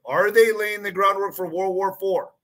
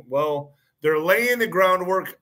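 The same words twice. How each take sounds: First: Recast as a question, stress on they. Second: Said in the usual way. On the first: Shown as a demonstration. Host rephrases his claim as a pointed question. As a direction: make the claim sound like asking. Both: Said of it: "I have to say it like this".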